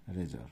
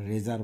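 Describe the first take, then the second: First: রেজর said short, 'রে-জর' with a clipped second syllable; correct pronunciation. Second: রেজার with a long open 'রে-জার' ending; wrong pronunciation. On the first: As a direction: give the model রেজর, a short ending. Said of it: "উচ্চারণটা হচ্ছে রেজর". (সঠিক উচ্চারণ, রেজর) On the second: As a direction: say রেজার the wrong way, stretching the second syllable. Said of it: "আমরা রেজার বলি না". (ভুল উচ্চারণ, রেজার) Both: Shown as a demonstration.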